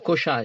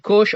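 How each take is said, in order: First: The word ends with an added final vowel. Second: The word ends on a consonant, no final vowel. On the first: "or Kosha" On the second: "Some people say Kosh"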